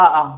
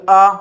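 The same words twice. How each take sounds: First: Big आ with the mouth wide open; fully open vowel. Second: आ held with the mouth only half open; half-open vowel. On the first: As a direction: open right up on a long आ. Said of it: "मुख का द्वार पूरा खुल जाता है". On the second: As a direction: keep आ short of fully open, like 'uh'. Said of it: "तो आधा खुलता". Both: Shown as a demonstration.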